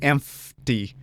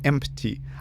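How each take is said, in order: First: It is said with an F sound after M. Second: It is said with a P sound after M. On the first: "I use an F" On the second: "you go empty"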